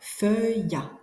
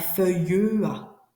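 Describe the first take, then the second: First: The final E of feuille is silent. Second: The final E of feuille is pronounced aloud. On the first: The speaker calls it right. "une deuxième syllabe qui fait feuilla" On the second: The speaker calls it wrong. "Et non pas feuilleua"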